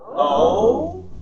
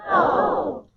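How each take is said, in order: First: It sounds puzzled and confused. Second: It sounds excited.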